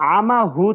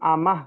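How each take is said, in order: First: The word ends with a full 'hu' syllable. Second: The word ends with a bare 'h' sound. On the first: This is the form without stopping. "আমা হু ছিল" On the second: This is the form when stopping on the word. "ওয়াকফ করার কারণে হু আমাহ মা হয়ে গেছে"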